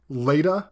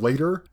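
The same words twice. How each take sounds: First: It is said in a Boston-like accent. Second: It is said in a neutral accent.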